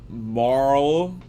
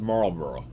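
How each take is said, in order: First: It is said slowly, with every syllable clear. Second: It is said quickly, with syllables slurred together. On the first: "I'm gonna go slow" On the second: "when I say it regular speed, I slur it all"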